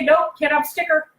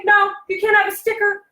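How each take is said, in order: First: Said in the usual way. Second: Teacher's refusal. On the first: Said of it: "and you say". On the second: Shown as a demonstration. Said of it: "this is what teachers say".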